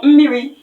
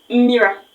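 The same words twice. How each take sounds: First: "mmiri" ending clearly in an i; final I sound. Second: "mira", the last vowel changed from i to a; final A sound. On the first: Teacher contrasting two words, "mmiri" with final i. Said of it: "letter I". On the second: Teacher showing the changed letter, "mira" with final a. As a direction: say "mira" slowly, ending in a. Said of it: "with an A". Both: Shown as a demonstration.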